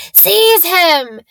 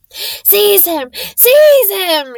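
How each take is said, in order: First: Loud, high command; a furious shriek at his servant; screamed. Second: High shriek building to full volume; frantic, rising shriek of rage. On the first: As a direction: bark the order with fury. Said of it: "Voldemort screamed". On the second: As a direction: scream it louder the second time. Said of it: "shrieked Voldemort again". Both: Acted.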